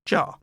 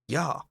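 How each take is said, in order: First: The word begins with a J sound. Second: The word begins with a Y sound. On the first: The speaker calls it wrong. "not pronounced ja" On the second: The speaker calls it right. "J is pronounced as ye"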